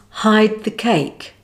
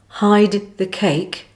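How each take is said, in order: First: The final D is not sounded. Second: The final D is fully pronounced.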